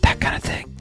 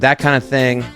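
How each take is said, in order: First: It is spoken in a whisper. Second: It is spoken in a normal voice. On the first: "and then I whisper it" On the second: "I say that kind of thing"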